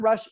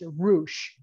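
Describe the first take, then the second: First: The name is said with an English pronunciation. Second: The name is said with a Spanish pronunciation. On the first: The speaker calls it wrong. "it's not Rush" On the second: The speaker calls it right. "he's from Mexico, so it's Roosh"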